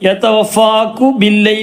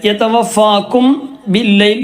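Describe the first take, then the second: First: The m is left out completely. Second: The m is sounded clearly and separately. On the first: "എന്ന് പറയാൻ പറ്റൂല" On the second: "എന്ന് പറയരുത്, അത് കൂട്ടിയിട്ട് മറച്ച് മണിക്കുക"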